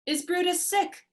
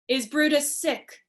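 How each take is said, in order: First: It sounds like a real question wanting an answer. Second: It sounds like a flat, rhetorical question.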